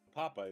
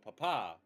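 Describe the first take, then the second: First: The stress is on the first syllable. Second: The stress is on the last syllable. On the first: It means potato. "Papa is potato" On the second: It means dad. "If you make the last syllable stronger"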